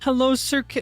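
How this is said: It is said imitating a woman's voice.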